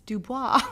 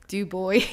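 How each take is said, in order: First: The name is said with a French pronunciation. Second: The name is said with an English pronunciation. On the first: The speaker calls it right. "It's French" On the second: The speaker calls it wrong. "I had been saying for two ish years"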